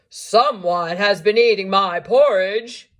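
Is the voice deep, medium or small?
deep. It is said in a big, deep voice.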